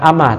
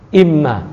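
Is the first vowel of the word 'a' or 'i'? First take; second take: a; i. First: The word begins with an 'a' vowel. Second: The word begins with an 'i' vowel. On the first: The speaker calls it wrong. "bukan ama" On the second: The speaker calls it right. "tapi imma"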